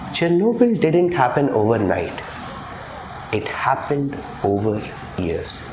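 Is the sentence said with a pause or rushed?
pause. A clear pause separates the two clauses. The speaker calls it right.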